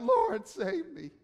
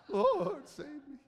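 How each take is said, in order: First: Crying out. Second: Put-on like a teenage boy whose voice breaks mid-cry; squeaky breaking cry for help; voice-cracking plea. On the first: Acted. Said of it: "cried out". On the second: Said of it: "adolescent kind of voice change moment".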